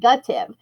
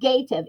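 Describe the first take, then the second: First: The vowel sounds like the word gut. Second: The vowel sounds like the word gate. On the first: It is how the word is normally said. "but we pronounce it gutive" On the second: It shows how the word is spelled. "think of gative"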